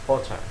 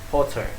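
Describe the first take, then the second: Both takes have the same delivery.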